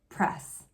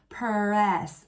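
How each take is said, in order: First: It is said quickly as one syllable. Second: It is stretched with an extra vowel added. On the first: The speaker calls it right. "just say it normally" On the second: The speaker calls it wrong. "my student doesn't go press. We don't want that"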